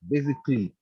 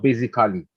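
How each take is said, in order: First: The ending is said as 'klee'. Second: The ending is not said as 'klee'. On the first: The speaker calls it right. "The last letters is pronounced as K L Y" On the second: The speaker calls it wrong. "it's not basically"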